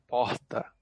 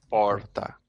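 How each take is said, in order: First: It is said in a southeastern Brazilian accent. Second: It is said in a Cuiabá accent.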